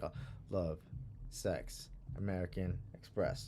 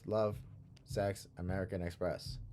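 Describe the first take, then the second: First: It is said with a loose, grooving rhythm. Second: It is said in a stiff, robotic rhythm.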